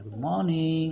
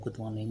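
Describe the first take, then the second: First: It is said with the pitch moving low and high. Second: It is said in one flat, unchanging pitch. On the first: The speaker calls it right. "dynamic tone, like some sometimes low, sometimes high" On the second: The speaker calls it wrong. "not only one flat tone like"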